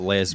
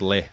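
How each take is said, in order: First: The word ends with an s sound. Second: The word ends without an s sound. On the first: The speaker calls it wrong. "rather than not Les" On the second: The speaker calls it right. "which I think is pronounced Le"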